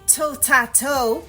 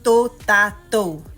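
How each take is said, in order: First: The t is said with a puff of air. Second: The t is said without a puff of air. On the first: The speaker calls it wrong. "Don't say totato" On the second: The speaker calls it right. "It's totato"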